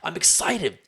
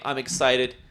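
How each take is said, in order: First: It sounds genuinely enthusiastic and energetic. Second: It sounds lame and half-hearted.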